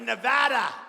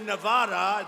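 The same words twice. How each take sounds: First: The name is said with the local pronunciation. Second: The name is said with a non-local pronunciation. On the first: It shows respect for the state's own usage. The speaker calls it right. "Got to be Nevada" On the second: It marks the speaker as an outsider. The speaker calls it wrong. "You say that wrong, you got problems. You say Nevada, they go, what the hell?"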